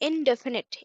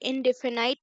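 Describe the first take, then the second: First: The last syllable has a short 'i' vowel. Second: The last syllable has a long 'eye' vowel. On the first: The speaker calls it right. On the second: The speaker calls it wrong.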